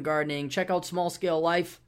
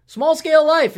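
First: Said in the usual way. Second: Announcer shout. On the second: Acted. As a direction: belt the show name out high and loud. Plugging a show name loudly.

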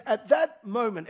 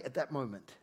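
First: Slow, weighty "At that moment"; slow emphatic lead. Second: Said in the usual way. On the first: Shown as a demonstration. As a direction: stretch out "At that moment" for the crowd to echo. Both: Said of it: "everybody say".

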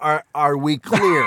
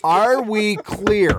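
First: Slow "Are we clear" with a stumbling start; parental ultimatum. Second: "Are we clear" high and very drawn out; emphatic ultimatum. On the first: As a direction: deliver the warning slowly, close to laughing. Acted punchline of absurd parenting warning. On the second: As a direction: hammer each word of "Are we clear" slowly. Repeats the ultimatum, bigger, after laughter. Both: Acted.

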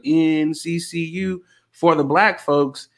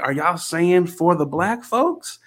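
First: Slow, measured chant for the team; retold school chant. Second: Slow question, rising on "folks". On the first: Alum recalls the chant at winning games, drawn-out chanting. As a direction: chant it slowly, spacing out the letters. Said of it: "we would have a chant". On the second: Retold or imitated. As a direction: ask it slowly, lifting "folks" in disbelief.

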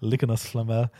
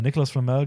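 First: "Nicolas" as "Likonas"; mispronounced name. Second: Said in the usual way. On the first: Shown as a demonstration. Podcaster replaying the slip for the co-host, "Nicolas" garbled into "Likonas". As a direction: start "Nicolas" on L, "Likonas Flamel". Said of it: "habe ich das erste Mal gesagt".

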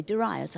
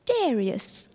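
First: Said in the usual way. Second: "Darius" as TEH-ree-us, stress on the first syllable; Romanian pronunciation. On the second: Retold or imitated. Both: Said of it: "We would say Darius".

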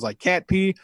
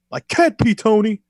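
First: Said in the usual way. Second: High, loud imitated outburst; mock frustrated yell. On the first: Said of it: "Santana says it smells like cat pee". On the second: Ortiz yelling at Tony on retold show, mock yell. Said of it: "stares at Tony and yells".

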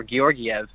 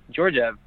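First: Georgiev said slowly as "ghee-or-ghee-EV"; broadcaster's pronunciation. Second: Georgiev said as "JOR-jev", two syllables; anglicized pronunciation. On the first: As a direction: say Georgiev with hard g sounds and extra syllables, "ghee-or-ghee-ev". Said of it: "how they say it on M S G". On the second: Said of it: "I'm pretty sure that's how". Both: Shown as a demonstration.

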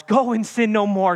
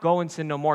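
First: "Go and sin no more" lifted high and loud; rousing and joyful. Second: Said in the usual way. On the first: Shown as a demonstration. Preacher proclaiming freedom to the congregation, lifted high. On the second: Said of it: "So it's not".

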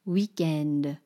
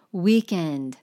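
First: Weekend said the French way, wee-KEND; French accent. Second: Said in the usual way. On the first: Shown as a demonstration. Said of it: "lean into whatever the caricature". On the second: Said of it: "don't be afraid to ... really lean into".

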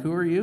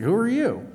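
First: Mild questioning rise on "you"; bemused officer asking an intruder; puzzled cops. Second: "Who are you?" thrown back much higher and louder, hitting "you"; Jesus snapping the question back at the cops; indignant retort. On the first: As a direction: ask "Who are you?" like a puzzled cop, a little higher. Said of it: "They're like". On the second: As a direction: turn the question back on them with mock outrage. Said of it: "He's like". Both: Retold or imitated.

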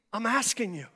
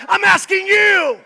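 First: A quiet pastor's appeal; soft plea. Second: High, loud cry of I'm asking you; a loud preacher's call; shouted plea. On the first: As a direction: pull it back to a hush. Drops to soft after shout. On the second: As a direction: hurl the plea at them. Peak shout of preaching run. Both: Acted.

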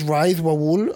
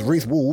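First: "Rise Wawul" with Reese said like "rise"; mispronounced name. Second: Said in the usual way. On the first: Retold or imitated. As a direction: say "Rise Wawul", first name rhyming with eyes. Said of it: "when people are calling me Ryaz". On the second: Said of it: "my name is Reese".

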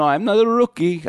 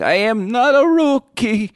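First: Higher, indignant mock cab driver; cabbie near breakdown. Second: Slow, very high, loud mock wail on every word; cabbie breaking down. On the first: Cab driver defending himself, mock distress. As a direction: protest like a driver losing it. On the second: Cab driver insisting on his experience, escalating mock breakdown. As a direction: hammer it out like a driver losing it. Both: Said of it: "a guy on the verge of a breakdown".

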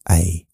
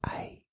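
First: Said in the usual way. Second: Very soft whispered letter. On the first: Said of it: "You don't use your throat". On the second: Shown as a demonstration. Demonstrating mouth-only speech, whispered. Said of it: "You use your mouth".

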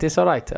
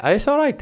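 First: Said in the usual way. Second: Squeaky, high it's all right; high mock-casual. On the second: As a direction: say it high and teasing. Judging the jingle twice.

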